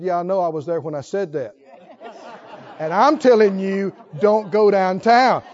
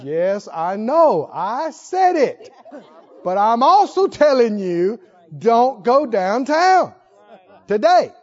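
First: A patient God repeating the warning; voicing the Holy Ghost. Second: Slow and louder, each word weighed; slow firm Holy Ghost. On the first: The Holy Ghost warns a stubborn believer, firm and patient. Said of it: "Holy Ghost said". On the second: Retold or imitated. The Holy Ghost repeats the warning to a stubborn believer, slow and firm. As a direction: lay down the warning slowly, like a final word. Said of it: "And Holy Ghost says".

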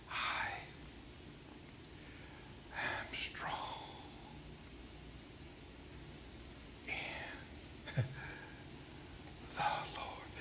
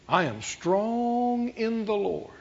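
First: Faint whisper, long gaps between words; barely audible, painfully slow; weak, struggling whisper. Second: Said in the usual way. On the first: Retold or imitated. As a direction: imitate a bedridden woman labouring through each word. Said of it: "took a while".

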